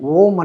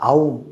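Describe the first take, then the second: First: The word starts with a plain 'o' vowel. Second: The word starts with a gliding 'au' vowel. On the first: The speaker calls it wrong. "మన వాళ్ళు పలకడం ఎందుకు పలుకుతున్నారో తెలియదు కానీ ఓం అని పలుకుతున్నారు" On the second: The speaker calls it right. "అకార ఉకార మకార అర్ధమాత్ర ఇతి ఔంకార అని వేదం చెప్తాను"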